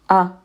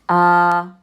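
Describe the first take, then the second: First: The vowel is kept short. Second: The vowel is held long. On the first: "can you recognize a short vowel? Right here, this fatha" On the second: "It is the alif. And what does the alif sound like?"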